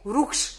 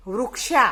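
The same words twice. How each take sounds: First: वृक्ष ending short, "vruksh"; no final aa. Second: वृक्षा with a long aa ending, "vruk-shaa"; wrong final vowel. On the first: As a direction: model वृक्ष cut off at the sh, no long vowel. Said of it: "ये आ की मात्रा उसमें". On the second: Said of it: "वृक्षा नहीं कहते". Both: Shown as a demonstration.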